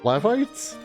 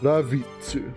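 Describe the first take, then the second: First: The name is said in an English-style way. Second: The name is said in a Japanese-style way. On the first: This is the reading used for years. "that's just always how I've read it" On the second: This follows the original Japanese writing. "How is it written in katakana?"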